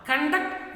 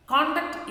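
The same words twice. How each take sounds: First: Conduct as conDUCT, weak first syllable; slow conduct, weight moved off the CON; stress on second syllable. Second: CONduct, strong first syllable; stress on first syllable. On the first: Teacher naming the verb for children, conDUCT. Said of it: "conduct is a verb". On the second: Teacher naming the noun for children, CONduct stressed first. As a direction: hit the CON in Conduct, raised pitch. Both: Shown as a demonstration.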